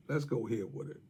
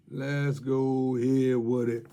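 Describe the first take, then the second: First: Said in the usual way. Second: Slow, stretched catchphrase; slow teasing sign-off line; drawn out. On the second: Acted. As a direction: savour every word like a tagline.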